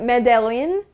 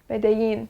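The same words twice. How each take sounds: First: It is read with English spelling sounds. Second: It is said with Spanish pronunciation. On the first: The speaker calls it wrong. "it looks like" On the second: The speaker calls it right. "this is actually a Spanish word, so you pronounce it"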